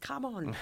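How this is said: It is said in an annoyed, frustrated tone.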